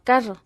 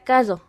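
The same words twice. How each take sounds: Both takes have the same delivery.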